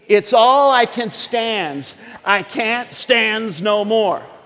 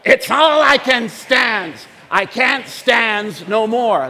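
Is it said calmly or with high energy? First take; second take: calmly; high energy. First: It is said with moderate, calmer energy. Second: It is said enthusiastically in a Popeye voice.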